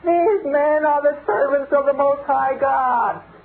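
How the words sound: It is said in a cracked, high-pitched, eerie voice.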